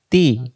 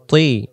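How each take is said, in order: First: Light, drawn-out "তি"; thin ti. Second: Thick "তি" with rounded mouth; heavy rounded ti. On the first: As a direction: say "তি" thin, without rounding. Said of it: "পাতলা আওয়াজে তা". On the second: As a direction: say "তি" as emphatic Arabic t, mouth round. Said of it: "তজের মুখটা গোল হবে". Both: Shown as a demonstration.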